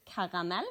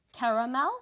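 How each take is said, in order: First: "caramel" said the Norwegian way, with ah vowels; lower-pitched Norwegian "caramel", rising at the end; Norwegian pronunciation. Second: "caramel" said the English way, pitched a bit up; English-style "caramel", rising at the end; English pronunciation. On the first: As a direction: say "caramel" as KAH-rah-MEL, lower in pitch. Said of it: "I just say the Norwegian word". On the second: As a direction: say "caramel" with an English r and open first a. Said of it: "say the words as I would say them in English". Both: Shown as a demonstration.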